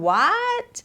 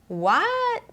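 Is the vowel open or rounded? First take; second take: open; rounded. First: The vowel is said with a wide open mouth. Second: The vowel is said with small rounded lips. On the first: "แทนที่จะ what what อย่างนี้กว้างๆ" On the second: "British ก็จะปากกลมเล็กนะ"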